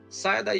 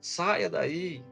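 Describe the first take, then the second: First: It is said firmly and forcefully, with authority. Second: It is said softly and gently, without force. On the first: The dog will obey. The speaker calls it right. "você precisa falar com autoridade" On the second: The dog will not obey. The speaker calls it wrong. "Você não vai falar dessa forma"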